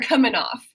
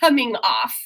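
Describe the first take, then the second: First: The final G of 'coming' is dropped. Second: The final G of 'coming' is pronounced. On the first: "So the G's always are going to be coming off. Even right there"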